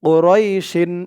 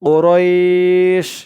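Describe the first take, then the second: First: The word ends with a full 'shin' syllable. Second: The word stops on a bare 'sh' sound. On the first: The speaker calls it wrong. "ও রয় শিন এমন হবে না।" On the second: The speaker calls it right. "এখানে অক্ফ আছে থামার কারণে।"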